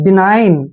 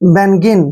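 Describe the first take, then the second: First: The g is silent, like bi-nine. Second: The g is sounded, like ben-gin. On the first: The speaker calls it right. "जी का उच्चारण नहीं करेंगे" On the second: The speaker calls it wrong. "आप इसको पढ़ेंगे बेनगिन, जो कि गलत है।"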